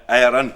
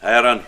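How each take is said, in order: Both takes have the same delivery.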